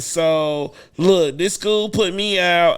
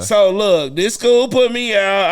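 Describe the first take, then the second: First: It is said in the speaker's own voice. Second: It is said in an imitated, put-on voice.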